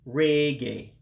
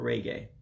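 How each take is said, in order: First: The E vowel is drawn out long. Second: The E vowel is short and plain. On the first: This is the Igbo word. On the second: This is the English word.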